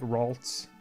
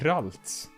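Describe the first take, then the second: First: The name has an English-style pronunciation. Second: The name has a Swedish-style pronunciation. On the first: "I guess you're supposed to say like" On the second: "that's a very Swedish, Swedishified uh, way of pronouncing it"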